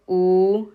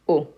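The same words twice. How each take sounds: First: The vowel sound is held long. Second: The vowel sound is cut short. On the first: "Long vowel" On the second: "short vowel"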